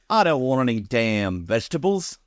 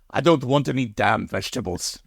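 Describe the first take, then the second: First: It is spoken in an Australian accent. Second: It is spoken in a German accent. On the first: "now in an Australian accent"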